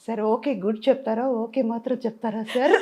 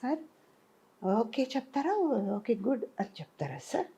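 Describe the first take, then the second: First: It is said in a low pitch. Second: It is said in a high, innocent pitch.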